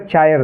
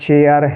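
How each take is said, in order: First: The vowel sounds like 'eye'. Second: The vowel sounds like 'air'. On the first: The speaker calls it wrong. "तो ये गलत है।" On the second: The speaker calls it right. "आपको इसको एयर से उच्चारण करना है"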